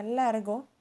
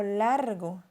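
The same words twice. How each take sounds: First: Said in the usual way. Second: Largo said with extra emphasis and a lengthened first syllable; emphatic largo. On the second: Shown as a demonstration. Teacher repeats largo with more emphasis. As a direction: lean hard into largo. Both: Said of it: "se le dio más énfasis en la pronunciación en la segunda emisión".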